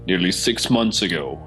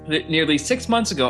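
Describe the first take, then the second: First: It is read in a put-on performing voice. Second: It is read in a natural speaking voice.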